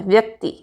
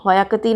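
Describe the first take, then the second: First: व्यक्ति as "vyak-ti", व्य joined; correct व्यक्ति. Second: व्यक्ति broken as "va-yak-ti"; wrong व्यक्ति. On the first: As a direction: start व्यक्ति with one "vy" cluster. (व्यक्ति, व्य संयुक्त) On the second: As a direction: add a vowel after व in व्यक्ति. (व्यक्ति को वयक्ति जैसा) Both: Shown as a demonstration. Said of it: "नहीं होता है".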